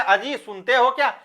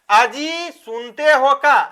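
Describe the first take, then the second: First: Said in the usual way. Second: Dialect call to husband. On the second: Shown as a demonstration. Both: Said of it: "ऐसा बोलते हैं".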